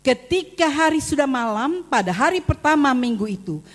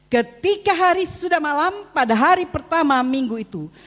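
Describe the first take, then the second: No difference in how they are said.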